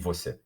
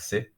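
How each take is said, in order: First: Both syllables are pronounced in full. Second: Only the last syllable is said, quickly. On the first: "which would be você" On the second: "instead of pronouncing the vo, you can just say uh, se"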